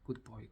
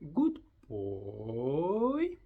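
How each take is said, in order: First: It is said in a flat, bored way. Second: It is said in a lively, expressive way. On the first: The speaker calls it wrong. "because it's boring" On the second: The speaker calls it right. "just say a different way"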